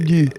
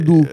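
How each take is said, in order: First: The vowel is the rounded front 'u' sound. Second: The vowel is the rounded back 'ou' sound. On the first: The speaker calls it right. "ça a toujours été du" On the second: The speaker calls it wrong. "Ça n'a jamais été doux"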